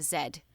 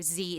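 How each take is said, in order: First: Z said "zed"; British zed. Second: Z said "zee"; American zee. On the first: Explaining web addresses to the host, British "zed" for Z. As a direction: say Z as "zed", rhyming with bed. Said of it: "do Z instead of Z". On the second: Explaining web addresses to the host, American "zee" for Z. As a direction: say Z as "zee", rhyming with see. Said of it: "a little bit more English sounding". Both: Shown as a demonstration.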